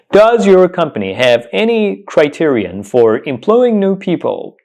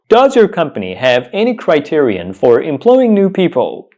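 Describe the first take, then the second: No difference in how they are said.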